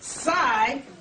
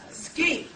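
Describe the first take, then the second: First: It begins with a soft s sound. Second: It begins with a hard sk sound. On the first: The speaker calls it wrong. "in Latin, this would not be pronounced psi" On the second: The speaker calls it right. "it would be pronounced ski"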